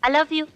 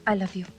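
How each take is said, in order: First: It sounds plain and motherly, not romantic. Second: It sounds tender and romantic, full of feeling.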